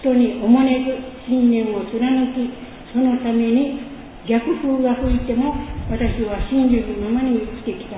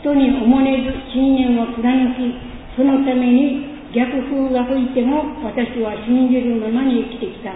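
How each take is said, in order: Both takes have the same delivery.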